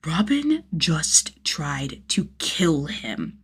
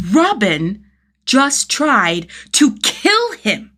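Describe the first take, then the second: First: Slow, hushed disbelief; realising the kid tried to kill him, whispered; stunned whisper. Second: Louder, higher, slow outrage; repeating the realisation, now loudly outraged; outraged disbelief. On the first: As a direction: breathe it out in shock. Shock sinking in. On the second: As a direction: let the disbelief explode. Shock turning to outrage. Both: A narrator's reading.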